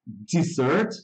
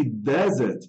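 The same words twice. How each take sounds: First: "dessert" said di-ZERT, stress on the second syllable; "dessert" as di-ZERT, like the sweet course; dessert pronunciation. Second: "desert" said DEZ-ert, stress on the first syllable; "desert" as DEZ-ert, like the sandy place; desert pronunciation. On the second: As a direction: say "desert" with an open e and the stress up front. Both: Shown as a demonstration. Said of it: "a palavra dessert e desert é muito parecida".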